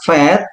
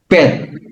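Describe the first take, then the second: First: The word begins with a v sound. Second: The word begins with a b sound. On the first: The letter has no dot in the middle. "yang nggak ada titiknya ini dibaca vet" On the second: The letter has a dot in the middle. "yang ada titik atau dages dibaca bet"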